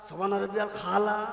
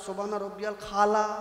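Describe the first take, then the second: First: The last word starts with a 'kh' sound. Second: The last word starts with a 'kh' sound.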